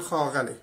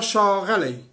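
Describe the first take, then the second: First: The word begins with a 'kh' sound. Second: The word begins with a 'sh' sound. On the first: "اونا میگن خاغلی" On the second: "با همین شین نوشته میشه"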